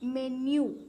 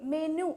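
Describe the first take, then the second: First: It is said with a y sound after n. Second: It is said with no y sound after n. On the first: The speaker calls it right. "മെന്യു എന്നാണ് pronounce ചെയ്യുക" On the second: The speaker calls it wrong. "ഇത് മെനു എന്നല്ല pronounce ചെയ്യണ്ടേ"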